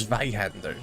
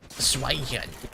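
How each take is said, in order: First: Zweihander said crisply as tsvai-hander; put-on German Zweihander with a hard v; German pronunciation. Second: Slow, over-stretched Zweihander; mock wrong pronunciation. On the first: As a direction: give Zweihander a German v sound. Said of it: "it's Zweihander". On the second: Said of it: "Like, it's not Zweihander". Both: Shown as a demonstration.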